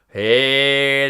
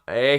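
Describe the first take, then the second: First: The sound resonates in the nose. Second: The sound resonates outside the nose. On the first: "This is in my nose" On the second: "this is not"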